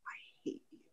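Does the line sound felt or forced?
felt. The anger comes from inside and sounds felt. The speaker calls it right. "it's got to come from the inside"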